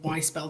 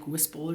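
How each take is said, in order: First: The name sounds like the words 'why spell'. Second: The name sounds like one word, 'whisple'. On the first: "I hope I'm pronouncing that right" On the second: "it's not actually like Whisple or something like that"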